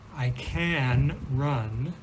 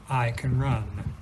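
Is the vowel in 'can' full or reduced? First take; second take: full; reduced. First: The vowel in can is a full a. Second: The vowel in can is weak and reduced.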